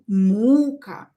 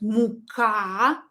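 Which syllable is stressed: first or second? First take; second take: first; second. First: The stress is on the first syllable. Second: The stress is on the second syllable. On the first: "And here, U" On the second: "Here, uh, A is stressed"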